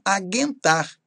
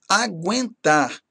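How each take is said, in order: First: The u after the g is silent. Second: The u after the g is pronounced. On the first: The speaker calls it wrong. "É errado falar" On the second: The speaker calls it right. "pronunciar como ditongo"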